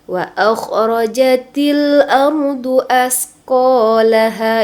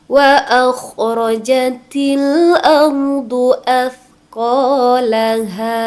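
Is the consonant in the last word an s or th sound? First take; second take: s; th. First: The consonant is said as a plain s sound. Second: The consonant is said as th, tongue tip out. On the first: The speaker calls it wrong. "eh malah baca jadi sa. ... Itu fatal ya salahnya" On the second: The speaker calls it right. "Yuk kita benarkan"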